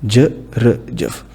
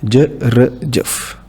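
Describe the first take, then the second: Both takes have the same delivery.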